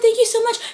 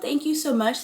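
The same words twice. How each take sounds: First: It is said in an overexcited, gushing way. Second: It is said in a warm but composed way. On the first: The person seems insecure and needs validation. The speaker calls it wrong. "don't overdo it" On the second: The person is gracious but self-confident. The speaker calls it right. "if you want to be nicer and you still have self-confidence"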